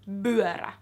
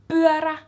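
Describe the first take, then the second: First: The first sound is a B sound. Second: The first sound is a P sound. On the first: "or b" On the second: "buara with a P"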